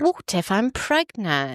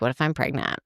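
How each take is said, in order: First: It is said in a put-on English accent. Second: It is said in the speaker's usual accent.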